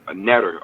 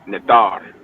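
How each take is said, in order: First: It is said with an anglicized pronunciation. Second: It is said with the original, native pronunciation. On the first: The speaker calls it wrong. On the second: The speaker calls it right. "That's the proper way to say it"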